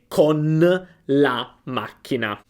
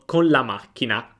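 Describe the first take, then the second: First: The N before the L is clearly pronounced. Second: The N before the L is very weak. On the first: "quando scriviamo è con la macchina" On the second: "ma poi a pronunciarlo con la macchina"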